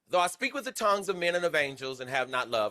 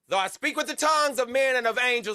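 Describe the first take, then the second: First: It is said at normal volume. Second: It is said noticeably louder.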